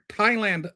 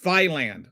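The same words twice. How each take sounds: First: It begins with a plain 't' sound. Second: It begins with a 'th' sound, like thigh. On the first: The speaker calls it right. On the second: The speaker calls it wrong.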